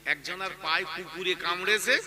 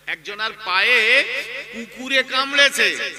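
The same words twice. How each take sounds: First: Said in the usual way. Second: Emphatic repetition. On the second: Real, not acted. Preacher repeating the dog-bite parable to listeners, loud emphasis. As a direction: hammer the line home, swelling on পায়ে and কামড়েছে.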